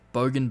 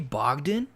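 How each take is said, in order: First: The name is said without a d sound. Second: The name is said with a d sound. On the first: The speaker calls it right. "there's no D in there" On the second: The speaker calls it wrong. "it's not Bogdan"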